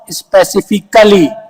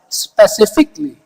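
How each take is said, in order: First: The 'a' in the ending is pronounced. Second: The 'a' in the ending is silent. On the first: The speaker calls it wrong. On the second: The speaker calls it right. "A is silent. You're going to stress on L"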